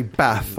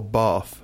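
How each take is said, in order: First: "bath" with a short a; "bath" the northern English way, short a. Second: "bath" with a long ah; "bath" the southern English way, vowel of "father". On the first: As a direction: say "bath" with the vowel of "cat". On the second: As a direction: say "bath" as bahth. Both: Shown as a demonstration. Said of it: "Do you say bath or bath".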